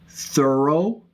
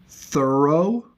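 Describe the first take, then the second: No difference in how they are said.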